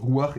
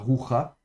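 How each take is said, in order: First: The 'a' vowel comes before the final consonant. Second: The 'a' vowel comes after the final consonant. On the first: The speaker calls it right. "on prononce bien avec le patafurtif rouar" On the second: The speaker calls it wrong. "et pas roucha"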